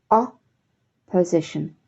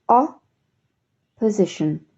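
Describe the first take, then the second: Both takes have the same delivery.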